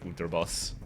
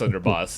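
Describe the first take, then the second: First: The middle consonant is a t sound. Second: The middle consonant is a d sound. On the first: "I feel like they should be saying Unterboss" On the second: "I know it's Underboss"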